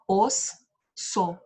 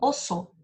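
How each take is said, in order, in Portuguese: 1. A palavra é dividida, com uma pausa entre as sílabas. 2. A palavra é dita de uma vez só, sem pausa. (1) "Eu não falo assim" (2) "Eu junto tudo e falo de uma vez só"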